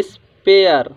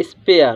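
First: स्पेयर slowly, pause after "is"; broken-up स्पेयर. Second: स्पेयर as one joined word, "is-pay-ar"; reading of स्पेयर. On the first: Teacher repeats for students, स्पेयर in slow parts. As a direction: split स्पेयर into "is... pay-ar". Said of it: "तो इसको लिखते हैं". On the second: Teacher answers the class, स्पेयर in one piece. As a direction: say स्पेयर falling, with "pay-ar" run together. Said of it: "इसको क्या पढ़ेंगे?". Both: Shown as a demonstration.

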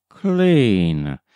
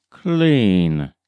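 The two takes are said the same way.

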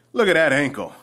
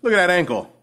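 No difference in how they are said.

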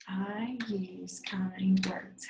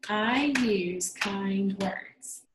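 First: Slow whisper, words spaced apart. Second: Each word slow and separate; clap it out. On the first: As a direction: breathe each word out quietly. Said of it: "whispered repeat". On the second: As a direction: space the words out as if clapping. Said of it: "let's clap it out". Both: Shown as a demonstration.

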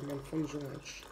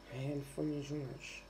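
First: Softer and fast, mumbled under the breath; quiet sulky mumble. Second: Much softer, fast, mumbled away; quieter sulky mumble. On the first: Vlogger sulking to viewers about her cup, quiet fast mumble. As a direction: mutter it quickly, sulking. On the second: Vlogger giving up on the cup, softer fast sulky mutter. Sulking about the broken cup. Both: Real, not acted.

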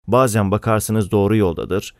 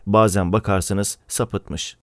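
First: Said in the usual way. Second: Slow down on bazen bakarsınız sapıtmış; slow, weighted contrast. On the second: A narrator's reading. Telling of Murat's wavering, slow and deliberate. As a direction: let "sapıtmış" sink, slow and falling. Parallel contrast, slowed second half.

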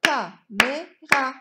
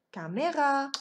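First: "Caméra" in three slow, loud beats; syllable by syllable. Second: Said in the usual way. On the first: Shown as a demonstration. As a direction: punch out "Ca", "mé", "ra" separately. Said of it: "On va frapper les syllabes".

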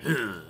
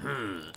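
First: Snake grunt. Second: A failed, softer try at a gruff grunt; bad Snake grunt. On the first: Retold or imitated. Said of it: "when he went". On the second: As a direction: botch the grunt on purpose. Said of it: "that one wasn't".

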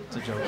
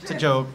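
First: Trailing, quieter joke disclaimer. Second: Said in the usual way. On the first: Shown as a demonstration.

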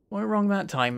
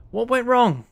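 First: Said in the usual way. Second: High-pitched, baffled demand; raised voice of disbelief; exasperated question. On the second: Real, not acted. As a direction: demand to know what failed. Baffled right after the crash.

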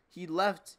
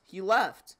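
First: Said in the usual way. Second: "He left." said again, louder and higher; loud shocked repeat of "He left."; louder disbelief. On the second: Real, not acted.

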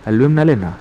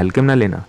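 First: Says हलवे instead of हल्के, "halve"; हलवे with v sound, wrong word; slip of the tongue. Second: हल्के said clearly as "halke"; corrected word. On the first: (हल्के की जगह हलवे बोलना) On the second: (सुधारकर हल्के बोलना) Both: Real, not acted. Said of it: "हलवे में बता रहे हैं".

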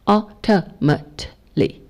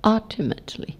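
First: "ultimately" slowly broken up, UL-tuh-mut-lee; slow syllable-by-syllable "ultimately", first one stressed; unstressed light syllables. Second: "ultimately" with UL high and level, rest light; "ultimately" stressed like Mandarin first tone at the start; stress on first syllable. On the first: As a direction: space out "ultimately", light neutral tone after UL. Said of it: "全部都是中文的轻声的音". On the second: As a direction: punch UL in "ultimately", soft quick tail. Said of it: "相当中文的第一声". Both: Shown as a demonstration.

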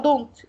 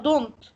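First: Don't pressed, falling; stress on don't. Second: Don't said firmly, falling; stress on don't. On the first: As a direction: hit don't hard. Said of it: "في عندي do". (ضغط على don't) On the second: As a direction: lean on don't. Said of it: "هي الإجابة do". (تشديد على don't) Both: Shown as a demonstration.

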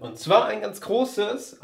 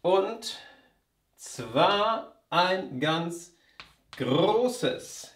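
First: Said in the usual way. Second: Und zwar ein ganz großes, slow, each syllable set apart, zwar stressed; slow metrical scansion of Und zwar ein ganz großes with zwar stressed; scanned stress. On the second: Shown as a demonstration. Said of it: "auch die Betonung ist gleich".

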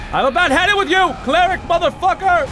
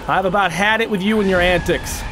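First: High, fast fed-up yell; exasperated outburst. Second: Said in the usual way. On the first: Real, not acted. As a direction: snap at the boss in high-pitched frustration. Fed up, repeats it louder.

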